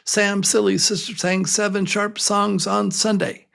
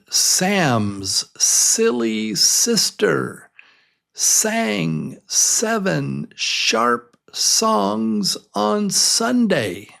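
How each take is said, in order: First: It is spoken very fast. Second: It is spoken at a normal, careful speed.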